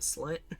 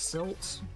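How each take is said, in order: First: The name sounds like slit. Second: The name sounds like silt. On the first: "you could technically pronounce it slit" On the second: "I think it's supposed to be pronounced silt"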